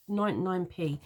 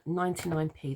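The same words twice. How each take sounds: First: "ninety-nine p" in a London accent, the t in "ninety" swallowed. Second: Said in the usual way. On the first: Real, not acted. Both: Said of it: "that's my London accent coming out then".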